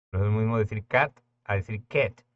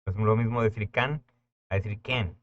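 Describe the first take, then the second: First: Cat first as kat, then as ket; Spanish A versus English short a. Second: Can first as kan, then as ken; Spanish A versus English short a. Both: Shown as a demonstration.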